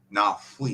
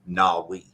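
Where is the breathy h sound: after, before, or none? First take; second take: after; none. First: A breathy h sound comes after the consonant. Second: The word has no breathy h sound. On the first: "the post aspirated would be" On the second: "That would just be normal"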